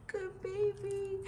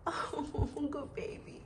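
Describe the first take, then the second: First: Much higher, slow drawn-out coo; cooing praise. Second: Soft unvoiced whisper of praise. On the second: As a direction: breathe the praise to the dog. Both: Real, not acted. Praising the dog.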